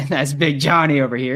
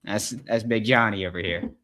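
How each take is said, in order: First: Louder, laughing through "That's Big Johnny over here". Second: Said in the usual way. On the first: Real, not acted. Host cracking up at his own joke about the coach, laughing. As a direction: let the laugh spill into the line.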